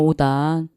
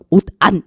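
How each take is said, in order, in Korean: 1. d 소리는 다음 모음에 이어 읽어요. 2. 받침은 모음 앞에서 끊어 읽어요. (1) "잘못 발음하시는 겁니다. 오단이에요" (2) "저는 그렇게 발음 안 하는데요. 옷안 저는 이러는데요"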